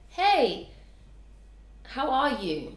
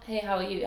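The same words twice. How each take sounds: First: It sounds sincere and genuinely interested. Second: It sounds offhand and merely routine.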